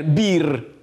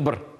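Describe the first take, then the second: First: It is pronounced the way Russian reads it. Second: It is pronounced the native Crimean Tatar way. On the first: The speaker calls it wrong. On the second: The speaker calls it right.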